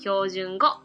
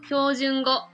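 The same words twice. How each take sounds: First: Hiroshima accent, pitch rises on the final syllable. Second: Standard Japanese accent, no rise on the final syllable.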